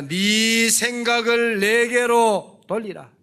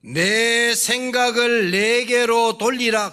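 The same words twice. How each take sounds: First: 내게로 stressed, slow and loud; slow solemn proclamation leaning on 내게로; solemn scripture quote. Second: 내게로 stressed, slow and loud; slow solemn reading with weight on 내게로; solemn scripture quote. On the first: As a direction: repeat 내게로 slowly and loudly, a weighty refrain. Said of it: "오늘 그 말입니다". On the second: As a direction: proclaim 내게로 slowly and loudly as God's word. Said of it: "그 말, 우상 숭배하지 말라". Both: Shown as a demonstration.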